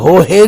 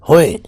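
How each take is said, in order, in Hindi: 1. दूसरे अक्षर की शुरुआत h की ध्वनि से होती है। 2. दूसरे अक्षर में h की ध्वनि नहीं है। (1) "ਇਹਨੂੰ ਹੋ ਹੈ ਨਹੀਂ ਕਹਿਣਾ" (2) "ਇਹਦਾ ਜਿਹੜਾ ਹੋਏ ਦਾ ਉਚਾਰਨ ਹੈ"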